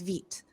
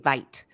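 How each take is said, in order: First: The vowel sounds like 'ee'. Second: The vowel sounds like 'eye'. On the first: The speaker calls it right. "it's Veet" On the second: The speaker calls it wrong. "I kept wanting to say Vite, and it's not Vite"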